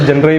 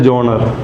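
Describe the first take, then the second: First: It is read as spelled, with a short 'jun' start. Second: It starts with 'jon' and ends in a short 'ruh'. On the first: It is read straight from the spelling. "Spelling अगर आप लोग पढ़ेंगे तो जनरे ही पढ़ेंगे" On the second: Some people say it this way. "कुछ लोग बोलते हैं जॉनर"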